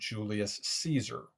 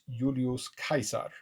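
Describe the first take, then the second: First: The name is said the usual English way. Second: The name is said the classical Latin way. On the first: This is the familiar modern form of the name. "We all recognize that his name" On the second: This is how the name sounded in his own time. "was actually known in his time by his tria nomina"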